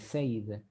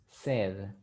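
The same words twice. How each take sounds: First: The vowel sounds like the one in say. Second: The vowel sounds like the one in bed. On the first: The speaker calls it wrong. "said is the past of say, but you don't say said" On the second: The speaker calls it right. "The pronunciation is said"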